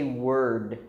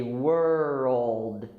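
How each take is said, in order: First: "word" with no L, one syllable; mistake to avoid. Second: Put-on "world" stretched slowly as WUR-old. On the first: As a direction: drop the L, say WURD. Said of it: "we don't say word". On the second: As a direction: let the L in "world" sound like O. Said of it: "we say world". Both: Shown as a demonstration.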